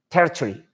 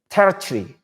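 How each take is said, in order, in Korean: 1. 영국식 억양으로 말해요. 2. 영국식 억양으로 말해요.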